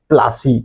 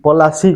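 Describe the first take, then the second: First: The p and l run together with no vowel. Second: A full vowel is heard between p and l. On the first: This is how the English pronounced it. "इंग्रेज मानकर pronounce रे सेटा प्लासी हो जाइए" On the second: This is the local name of the place. "पलासी कहसन"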